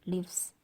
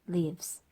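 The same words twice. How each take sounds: First: The vowel in 'lives' is short. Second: The vowel in 'lives' is slightly drawn out. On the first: The speaker calls it wrong. "이게 아니라" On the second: The speaker calls it right. "대신 리가 조금 길죠"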